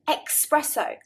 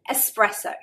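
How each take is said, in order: First: The word begins with an added ks sound. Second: The word begins with a plain ess sound.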